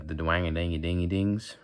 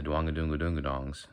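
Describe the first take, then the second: First: "dwang-a-dingy-dingy-dings" as rising country twang; country accent nonsense, brightly ringing "dingy" syllables. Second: "dwang-a-doonga-doonga-dongs" as a lowered Southern drawl; un-twanged Southern nonsense syllables. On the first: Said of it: "Country is the dwang-a-dingy-dingy-dings". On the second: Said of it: "that's not country". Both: Shown as a demonstration.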